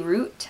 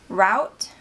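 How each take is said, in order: First: The vowel sounds like the one in 'boot'. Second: The vowel sounds like the one in 'out'.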